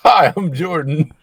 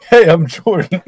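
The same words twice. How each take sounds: First: Loud, slow, higher British greeting; hammed-up British accent, drawn out; mock British accent. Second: Loud, higher attempt at Irish; badly faked Irish accent, very loud; mock Irish accent. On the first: Jordan's acting reel introduction, mock British accent. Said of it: "this is a British accent". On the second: Jordan's acting reel introduction, mock Irish accent. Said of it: "this is an Irish accent". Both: Shown as a demonstration.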